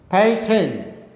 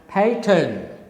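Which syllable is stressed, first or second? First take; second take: first; first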